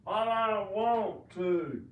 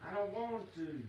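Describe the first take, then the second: First: "I don't want to" slow, loud and drawn out; slow, emphatic "I don't want to"; showing own way of talking. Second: Said in the usual way. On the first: Shown as a demonstration. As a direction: stretch "I don't want to" out loudly. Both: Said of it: "That's how I talk".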